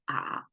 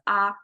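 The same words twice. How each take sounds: First: The pitch dips low, then rises. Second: The pitch stays level and high.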